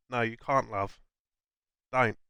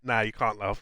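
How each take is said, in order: First: Said in the usual way. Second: Cockney accent. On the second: Shown as a demonstration. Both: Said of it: "not in a Cockney accent".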